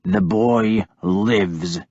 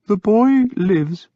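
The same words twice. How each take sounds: First: Slow low snarl. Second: High, slow gentle agreement; soft. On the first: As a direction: growl it through clenched anger. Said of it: "I snarled at him". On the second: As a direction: soothe him softly. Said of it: "Willibald said softly". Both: Acted.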